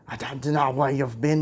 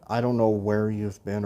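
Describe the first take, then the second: First: It is said in a rough Scottish accent. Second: It is said in the speaker's plain accent. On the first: "that's awful" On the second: "I should have probably used a Scottish accent though"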